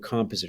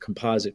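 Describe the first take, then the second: First: The word is said in a non-American way. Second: The word is said in an American way.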